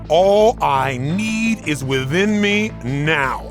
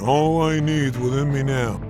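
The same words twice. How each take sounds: First: It is said loudly, with strong energy. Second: It is said flatly, with little energy. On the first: It is expressed with the whole body. The speaker calls it right. "And you're using your body, your face, everything" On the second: It is just recited as an affirmation. The speaker calls it wrong.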